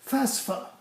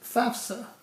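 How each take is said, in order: First: The s sound comes before the f. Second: The f sound comes before the s. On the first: The speaker calls it wrong. "people by the gajillions like to pronounce it FASFA" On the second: The speaker calls it right. "The word is FAFSA, F A F S A"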